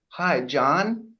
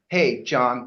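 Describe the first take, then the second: First: The name is said like a question. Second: The name is said confidently, like a statement.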